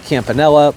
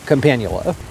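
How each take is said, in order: First: The word ends with an 'ella' sound. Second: The word ends with an 'ula' sound. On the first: This is the version learned from a relative. The speaker calls it wrong. "I have always heard uh" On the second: This is the correct name. The speaker calls it right. "but I realize now that it's Campanula"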